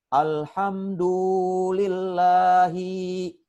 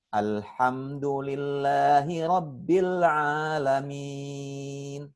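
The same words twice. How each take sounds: First: Higher chanted "Alhamdulillahi" with every syllable dragged out; short vowels wrongly stretched. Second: Slow chanted recitation, stretching the long vowels in "Rabbil Alamin"; long vowels held. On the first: Ustadz imitating a learner's mistake, over-lengthened "Alhamdulillahi". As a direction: wrongly drag out the final "hi" of "Alhamdulillahi". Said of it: "Kenapa dibaca panjang?". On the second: Ustadz showing where to read long, chanted "Alamin" with held vowels. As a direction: draw out "Alamin" in a sustained chant. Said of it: "ayo dibaca panjang".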